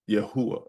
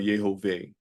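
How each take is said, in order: First: The middle consonant is said as a U sound. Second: The middle consonant is said as a V sound. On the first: "say it as though it's a U sound" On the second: "say it as though it's a V"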